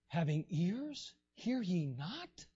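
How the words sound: The question is said in an exasperated, frustrated tone. Jesus was frustrated that they still didn't understand. "I think He was like"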